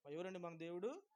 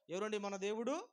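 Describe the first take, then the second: First: Said in the usual way. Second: Loud call. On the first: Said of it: "ఇంకొంచెం గట్టిగా చెప్పండి". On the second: Shown as a demonstration. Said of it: "గట్టిగా చెప్పట్లా".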